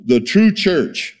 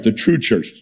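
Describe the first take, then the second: First: "the true church" slowed right down, higher, leaning on "true"; stress on TRUE. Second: Said in the usual way. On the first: Shown as a demonstration. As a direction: drag out "the true church", pressing hard on "true".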